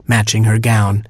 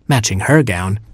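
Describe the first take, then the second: First: Said in the usual way. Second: "her" lifted in pitch above the other words; stress on "her". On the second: A narrator's reading. Narrator matches second sister to her gown, stressing "her". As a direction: put the contrast on "her".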